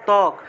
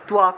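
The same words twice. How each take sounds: First: The first consonant has no w-like glide. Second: A w-like glide follows the first consonant. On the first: This is the everyday Bengali pronunciation. "বাংলায় বললে" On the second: This is the Sanskrit pronunciation. "কিন্তু সংস্কৃত উচ্চারণটা হবে"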